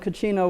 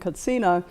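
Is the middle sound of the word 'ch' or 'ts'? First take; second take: ch; ts. First: The middle consonant is pronounced as 'ch'. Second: The middle consonant is pronounced as 'ts'. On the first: This is the form adopted into English. "which has become English" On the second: This is the form used in the original language. "which is the Hopi word"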